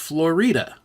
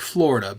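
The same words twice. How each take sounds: First: The name is pronounced the Spanish way. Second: The name is pronounced the usual English way. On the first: "but it's pronounced Florida because again the Spanish influence" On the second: "it's spelled like Florida"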